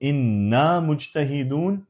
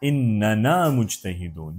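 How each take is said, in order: First: The first word is said with one n syllable. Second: The first word has an extra n syllable.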